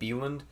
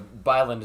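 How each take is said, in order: First: The surname is said with a Swedish-like vowel. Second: The surname is said with an American vowel. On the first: It tries to match the original language. The speaker calls it wrong. "to get it closer to the actual Swedish pronunciation" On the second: It is the form the name's owner prefers. The speaker calls it right. "Byland is how he prefers"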